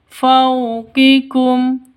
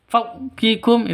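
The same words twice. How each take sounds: First: The 'faw' flows softly and smoothly. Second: The 'faw' is cut short abruptly. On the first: The speaker calls it right. "Yang betul, fawqikum, faw, lemes ya" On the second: The speaker calls it wrong. "Fawqikum itu salah"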